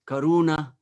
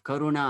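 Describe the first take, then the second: First: The stress falls on the second syllable. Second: The stress does not fall on the second syllable. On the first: The speaker calls it wrong. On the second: The speaker calls it right.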